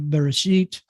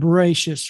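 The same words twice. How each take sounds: First: It is said with a Sephardic Hebrew pronunciation. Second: It is said with an Ashkenazi Hebrew pronunciation.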